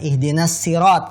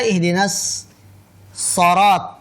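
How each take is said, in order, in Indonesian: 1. Vokal setelah s itu i. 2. Vokal setelah s itu o. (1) "kan soknya di kasroh" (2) "Tapi dibaca ihdinas sorot"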